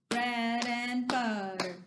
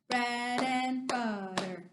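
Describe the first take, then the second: No difference in how they are said.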